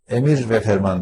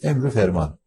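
First: The nouns are joined by a separate 've'. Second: The nouns are joined by a short 'u' vowel. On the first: The speaker calls it wrong. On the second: The speaker calls it right.

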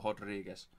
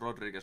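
First: The name is said the Brazilian Portuguese way. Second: The name is said the usual, non-Brazilian way. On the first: The speaker calls it right. "se on brassi, niin se todennäköisesti on Rodriguez" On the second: The speaker calls it wrong. "normisti se olisi Rodriguez"

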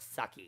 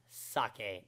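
First: The word ends with an 'ee' sound. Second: The word ends with an 'eh' sound. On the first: The speaker calls it wrong. "not sucky" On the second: The speaker calls it right. "It is, in fact, pronounced sake"

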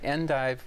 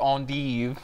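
First: The word is said the plain English way. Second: The word is said in a fancier French style.

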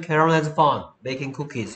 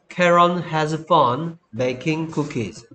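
First: The sentence is said at a fast pace. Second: The sentence is said at a slower pace.

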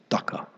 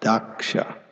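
First: The middle consonant is a plain 'k' sound. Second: The middle consonant is a 'ksh' sound.

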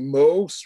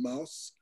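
First: The vowel is broad and open. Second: The vowel is narrow and not broadened. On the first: The speaker uses a regional way of speaking. The speaker calls it wrong. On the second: The speaker uses the standard way of speaking. The speaker calls it right.

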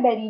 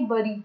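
First: The first vowel sounds like e in bed. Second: The first vowel sounds like u in but. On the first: The speaker calls it right. "बेरी ना कि बरी" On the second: The speaker calls it wrong. "ना कि बरी"

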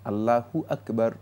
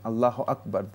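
First: Allah is said with a final u vowel. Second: Allah is said without a final u vowel. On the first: The speaker calls it right. "না আল্লাহু আকবার" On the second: The speaker calls it wrong. "তিনি যে সালাতের শুরু করে থাকেন"

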